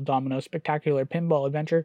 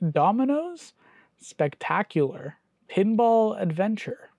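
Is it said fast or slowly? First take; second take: fast; slowly. First: It is said fast. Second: It is said slowly.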